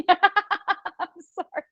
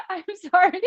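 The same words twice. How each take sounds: First: Slow apology broken by laughter; laughing apology. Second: Said in the usual way. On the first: Real, not acted. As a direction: apologise through giggles. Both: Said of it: "I'm laughing 'cause".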